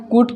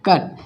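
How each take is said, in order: First: कूट with a long 'oo'; wrong spelling pronunciation. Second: कट with a short 'uh' vowel; correct pronunciation. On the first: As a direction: say कूट as if U were always 'oo'. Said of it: "यू तो ऊ होता है". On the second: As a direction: say कट short, like English 'cut'. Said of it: "pronunciation इनका अलग-अलग होता है". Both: Shown as a demonstration.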